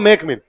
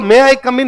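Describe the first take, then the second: First: The words are slurred into two quick syllables. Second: Each word is said separately and fully. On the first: "ये मेक मिन बोलते हैं" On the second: "अपने को मैं आई कम इन नहीं समझ में है"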